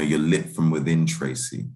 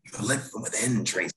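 First: Said in the usual way. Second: Higher, hammed-up dramatic line reading; heightened, theatrical movie quote; Jimmy Stewart, very dramatic. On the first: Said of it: "when Jimmy Stewart says to Katharine Hepburn". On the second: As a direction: play it as an old-film romantic lead, overdramatic. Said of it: "He's very dramatic".

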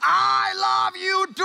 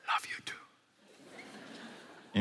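First: High, long-drawn answering shout; comic lovesick yell, stretched out; yelling lover. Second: Whispered lover's reply; hushed, intimate whisper back. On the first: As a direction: holler back slowly to a faraway sweetheart. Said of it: "Lovers don't yell". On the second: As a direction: answer very softly, without voice. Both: Acted.

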